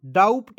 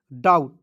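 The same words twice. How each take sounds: First: डाउट said as "daupt"; wrong pronunciation. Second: डाउट with a silent B; डाउट, ending in a clean t; correct pronunciation. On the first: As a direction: put a p before the t in डाउट. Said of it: "नहीं पढ़ लीजिएगा". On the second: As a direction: say डाउट with no p before the t. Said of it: "इसे पढ़ेंगे". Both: Shown as a demonstration.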